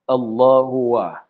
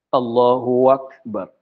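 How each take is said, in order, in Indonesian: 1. Akbar justru diawali dengan bunyi 'w'. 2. Akbar diawali dengan hamzah yang jelas.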